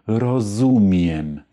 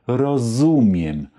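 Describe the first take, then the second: The two takes are said the same way.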